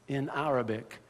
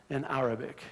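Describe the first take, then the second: No difference in how they are said.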